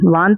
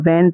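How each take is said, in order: First: The vowel is a long open 'aa' sound. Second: The vowel is a flat front 'ae' sound. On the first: The speaker calls it wrong. "वान थोड़ी पढ़ेंगे" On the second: The speaker calls it right. "वैन पढ़ेंगे"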